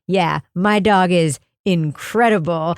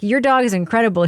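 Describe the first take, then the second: First: Lower, slow, matter-of-fact owner voice; calm proud affirmation. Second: Said in the usual way. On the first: Retold or imitated. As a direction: imitate the owner agreeing with total certainty. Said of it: "so affirmatively wonderful". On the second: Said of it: "I was like".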